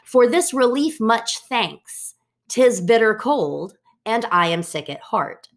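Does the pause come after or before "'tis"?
before. The pause comes before "'tis".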